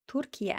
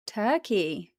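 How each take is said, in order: First: "Turkey" said the Turkish way, as Türkiye; "Turkey" in three syllables, like Turkish Türkiye; native pronunciation. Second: Said in the usual way. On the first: Shown as a demonstration. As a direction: say "Turkey" as Tur-ki-ye, ending in "yeh". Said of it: "I used to be able to say things".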